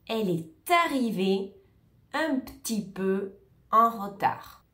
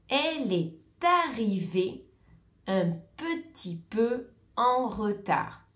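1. La voyelle de petit est supprimée. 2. La voyelle de petit est entièrement prononcée.

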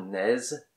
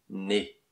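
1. Le mot se termine par une consonne ajoutée. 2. Le mot se termine par une voyelle pure. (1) "Pas naise" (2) "Vous savez dire les mots parler, avait et né"

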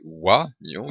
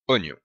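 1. La première voyelle se dit « wa », selon l'orthographe. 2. La première voyelle se dit comme un « o » simple. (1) "qui s'écrit, on devrait prononcer oignon" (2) "mais on prononce bien oignon"

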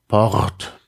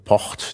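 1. Das R ist ein gerolltes Zäpfchen-R. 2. Das R ist ein stimmloser, zischender Reibelaut. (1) "Und das Zäpfchen R" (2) "die stimmlose Variante Port, die eindeutig ein Frikativ ist"

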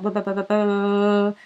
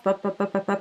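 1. Les pops arrivent très vite, presque fusionnés. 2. Les pops arrivent plus vite, avec des intervalles plus courts. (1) "Puis si j'augmente encore" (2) "Puis si on augmente la fréquence"

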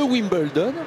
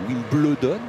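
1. Le nom est prononcé à l'anglaise. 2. Le nom est prononcé à la française. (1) "je prononce à l'anglaise" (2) "nous, on aurait dit Wimbledon"

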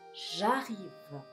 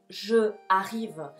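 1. La vocal de je se elide y se une. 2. La vocal de je se pronuncia completa. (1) "a quitar esa E, y verás cómo ahora fluye" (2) "no dices, por ejemplo, je arrive. Eso duele al oído"

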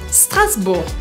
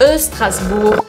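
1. A palavra começa direto com o som de S. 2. Um som curto de vogal vem antes do S. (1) "Eu falo Strasbourg" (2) "Então eu não falo Strasbourg"

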